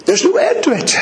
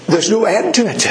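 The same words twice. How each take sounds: First: Much higher, ringing cry; high ecstatic preacher's cry; soaring exclaim. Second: Said in the usual way. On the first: Real, not acted. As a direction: lift it up in wonder.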